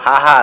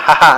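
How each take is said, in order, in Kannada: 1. ಎರಡೂ ಸ್ವರಗಳನ್ನು ದೀರ್ಘವಾಗಿ ಎಳೆಯಲಾಗುತ್ತದೆ. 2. ಎರಡೂ ಸ್ವರಗಳನ್ನು ಹ್ರಸ್ವವಾಗಿ ಹೇಳಲಾಗುತ್ತದೆ. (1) "ಪ್ರಾಚೀನ ಹೆಸರು ಹಾ ಹಾ ಅಲ್ಲ" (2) "ಹಹ ಅಂತ"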